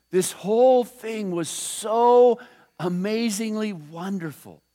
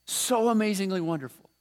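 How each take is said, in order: First: Whole drawn out slowly, louder, then fading on wonderful; slow emphatic awe. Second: Said in the usual way. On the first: Real, not acted. Preacher to congregation on angels watching, drawn out in awe. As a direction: linger on "whole" and let wonderful drop away.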